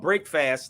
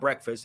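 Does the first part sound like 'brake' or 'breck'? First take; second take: brake; breck. First: Two separate words, first vowel like brake. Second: One word, first vowel short like breck. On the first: The speaker calls it right. "So it's called break fast" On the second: The speaker calls it wrong. "not breakfast"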